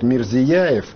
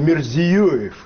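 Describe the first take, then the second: First: The vowel after 'zi' is pronounced 'ya'. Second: The vowel after 'zi' is pronounced 'yo'. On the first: This is the common mistaken form of the name. The speaker calls it wrong. "путают фамилию премьер-министра. У нас обычно его называют Мирзияев" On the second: This is the actual form of the name. The speaker calls it right. "Он Мирзиёев"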